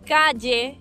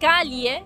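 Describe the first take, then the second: First: The ll sounds like an English y. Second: The ll sounds like a palatal ly. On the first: "como si fuese ye" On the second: "como si fuese L H en tu caso y li para nosotros"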